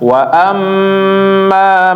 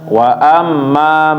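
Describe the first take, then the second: First: The doubled m is held for a moment. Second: The doubled m is cut short, not held. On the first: It follows the recitation rules. The speaker calls it right. "Tetapi ditahan sedikit, diterapkan tajwidnya" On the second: It sounds like casual conversation, not recitation. The speaker calls it wrong.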